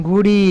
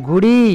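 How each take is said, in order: Both takes have the same delivery.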